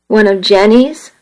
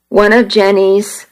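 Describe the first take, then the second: First: Disbelieving rise on Jenny's; incredulous echo. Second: Said in the usual way. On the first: A narrator's reading. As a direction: echo it back, stung and doubtful. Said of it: "I thought".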